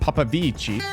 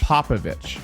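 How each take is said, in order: First: The name ends in a 'vee-chee' sound. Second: The name ends in a 'vich' sound. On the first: The speaker calls it wrong. "pronouncing it that way might make you feel cool and a little bit fancy" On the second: The speaker calls it right. "Popovich, not"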